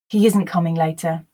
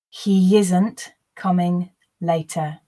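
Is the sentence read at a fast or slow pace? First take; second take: fast; slow. First: The sentence is read at a natural, faster pace. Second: The sentence is read slowly and deliberately. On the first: "Then I will repeat at a more natural pace" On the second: "The first time I'll read slowly for you to grasp the words"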